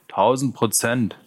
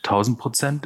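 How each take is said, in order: First: "Tausend Prozent" slow, as a firm answer; confirming. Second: "Tausend Prozent" higher, rising at the end; questioning. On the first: Gang member vouches for the newcomer, "Tausend Prozent" slowly confirmed. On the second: Gang member checks on the newcomer, "Tausend Prozent" as rising question. Asks whether newcomer is fully reliable. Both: Acted.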